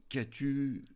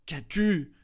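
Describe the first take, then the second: First: A first, fairly high worried question; husband asks his wife, startled by her tears; stammering worry. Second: Higher and louder, the second ask turns to alarm; alarmed repeat. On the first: A touch of worry in the question. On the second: Husband repeats the question louder to his crying wife. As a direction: press her again, much more anxious now. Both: A narrator's reading. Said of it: "Il bégaya".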